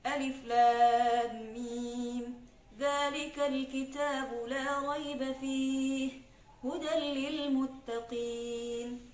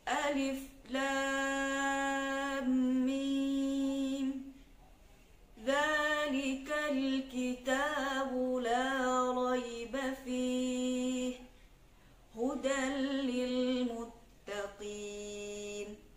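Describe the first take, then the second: First: The recitation is fast. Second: The recitation is slow and drawn out. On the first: "itu lebih cepat lagi" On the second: "salah satu contoh bacaan tahqiq, yaitu lambat"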